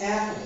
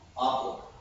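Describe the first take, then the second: First: The first vowel is a flat American-style vowel. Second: The first vowel is an open British-style vowel. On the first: "The a sound is an American sound" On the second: "They're gonna say like this"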